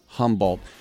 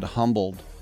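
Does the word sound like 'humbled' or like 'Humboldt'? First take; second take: Humboldt; humbled. First: The name is said as 'Humboldt', with its own ending. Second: The name sounds like the word 'humbled'. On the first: The speaker calls it right. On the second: The speaker calls it wrong.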